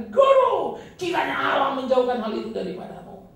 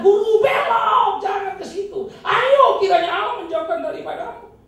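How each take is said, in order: First: High, loud pleading shout; Peter's cry. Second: Slow, high, loud pleading cry; Peter's plea. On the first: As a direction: cry out to hold the teacher back. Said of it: "Itu teriakan Petrus". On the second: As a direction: beg him to turn back, at full voice. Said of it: "Itu sebab dia kata". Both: Acted.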